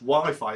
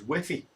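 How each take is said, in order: First: The word has an English pronunciation. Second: The word has a Spanish pronunciation.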